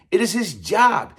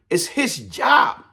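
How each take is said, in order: First: "is" hit hard with a falling tune; stress on is. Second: "his" drawn out slowly on a rising tune; stress on his. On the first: Correcting himself to viewers, pressing "is" hard. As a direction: punch "is" in "It is his job". Restating it is his duty. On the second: Insisting to viewers it was his job, stress on "his". Hammering home the counselor's duty. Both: Real, not acted.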